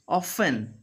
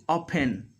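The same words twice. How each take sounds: First: OFTEN with an airy F, "off-en"; clear middle F. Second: OFTEN said as "open" with short O; F made a P. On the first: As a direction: let air through the F of OFTEN. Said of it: "when F is there in the middle". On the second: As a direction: close the lips for a P in OFTEN. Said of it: "they do". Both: Shown as a demonstration.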